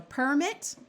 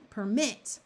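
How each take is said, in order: First: "permit" as the noun, PER high; "permit" said PER-mit; stress on first syllable. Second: "permit" as the verb, MIT accented; stress on second syllable. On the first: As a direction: hit the start of "permit". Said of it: "the noun". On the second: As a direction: hit the end of "permit". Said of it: "the verb". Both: Shown as a demonstration.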